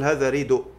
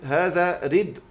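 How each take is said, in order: First: A short u vowel follows the d. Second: The d is followed directly by the final consonant. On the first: This is the pausal form with the vowel moved back. "أقول هذا ريدو" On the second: This is the word in its base form. "عندي كلمه هذا ردء"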